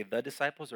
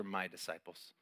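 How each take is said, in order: First: Said in the usual way. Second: "My disciples" with My leaned on, softer and lower; tender weight on "My"; "My" as a claim of belonging; stress on My. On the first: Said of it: "Did he say". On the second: Shown as a demonstration.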